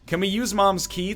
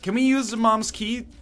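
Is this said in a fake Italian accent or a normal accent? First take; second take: normal; fake Italian. First: It is spoken in the speaker's normal accent. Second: It is spoken in a fake Italian accent.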